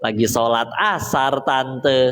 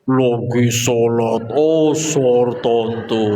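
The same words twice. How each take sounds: First: The sentence is said at a normal speed. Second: The sentence is drawn out very slowly. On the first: This is how it actually sounded. "Terdengarnya mah normal standar" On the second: This is how it sounded to the worried listener. "di telinga ibunya mah slow motion itu"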